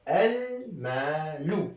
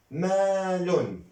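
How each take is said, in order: First: "المال" said al-maalu, high and slow; single damma ending. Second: "مال" said maalun, long aa, high and slow; double damma ending. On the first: Teacher showing the definite form, "المال" drawn out as al-maalu. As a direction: stretch "المال", ending on -u without n. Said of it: "ضمة واحدة". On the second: Teacher showing the indefinite form, "مال" drawn out as maalun. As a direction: stretch "مال" loudly, closing on -un. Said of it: "دو ضمة". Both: Shown as a demonstration.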